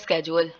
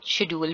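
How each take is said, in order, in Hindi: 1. शब्द 'sk' की आवाज़ से शुरू होता है। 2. शब्द 'sh' की आवाज़ से शुरू होता है। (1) "एक वर्ड है स्केजुअल" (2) "उसको हम शेड्यूल भी बोलते हैं"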